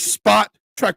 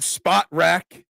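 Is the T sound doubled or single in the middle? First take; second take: doubled; single. First: The T sound is said twice, spot-track. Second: The T sound is said once, spot-rack. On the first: "You just verbally double up on the T" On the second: "I pronounce it spot rack"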